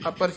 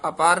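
First: The second vowel is kept short. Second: The second vowel is drawn out long. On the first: The speaker calls it right. "ਅਪਰ ਹੀ ਉਚਾਰਨ ਕਰਨਾ" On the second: The speaker calls it wrong. "ਅਪਾਰ ਨਹੀਂ ਕਹਿਣਾ"

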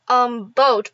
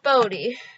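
First: The name is said as one syllable. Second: The name is said as two syllables. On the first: This is the accepted pronunciation. "I do know that it is pronounced the" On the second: This is a personal habit of saying it. "but I call it Bodie"

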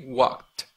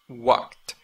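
No difference in how they are said.

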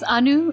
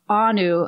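First: The name is said with its Indian pronunciation. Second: The name is said with an Arabic pronunciation. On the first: This is the name's own correct form. The speaker calls it right. "It's Anu Chudasama" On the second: The speaker calls it wrong.

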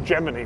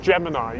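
First: The ending rhymes with bikini. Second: The ending does not rhyme with bikini. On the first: The speaker calls it right. "You say Gemini" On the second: The speaker calls it wrong. "I've always said Gemini"

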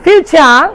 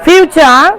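No difference in how they are said.

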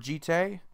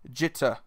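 First: The final vowel is drawn out with heavy emphasis. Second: It is quick with a light final vowel. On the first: The speaker calls it wrong. "you're putting a ton of emphasis on the E" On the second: The speaker calls it right. "It's very quick, There is like a slight pause in between the word. There is emphasis on the E, but it's not as much"

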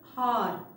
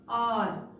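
First: The word starts with an h sound. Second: The word starts with a vowel, no h. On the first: The speaker calls it wrong. "This is not this" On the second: The speaker calls it right. "The correct pronunciation of this word is R. H is silent here"

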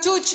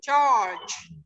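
First: The vowel sounds like 'oo'. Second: The vowel is a long 'er' sound. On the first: The speaker calls it wrong. "Bukan church ya bacanya ya" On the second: The speaker calls it right. "Ingat U itu dibaca A panjang church"

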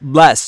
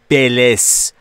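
First: The b and l join with no vowel. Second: A vowel sound separates the b and the l. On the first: The speaker calls it right. "بین B و L صدایی وجود نداره" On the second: The speaker calls it wrong. "پس ما اجازه نداریم که بگیم بلس"

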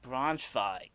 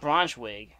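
First: The w is said as a v sound. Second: The w is said as an English w sound. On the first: The speaker calls it right. "W's are pronounced like V's in German, so it would make it like Braunschweig" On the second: The speaker calls it wrong. "It's not Braunschweig"

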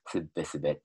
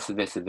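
First: A held consonant comes after the first syllable. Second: The word is said plainly without a held consonant.

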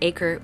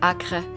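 First: The word is said with an English accent. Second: The word is said with a French accent.

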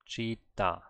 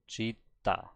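No difference in how they are said.

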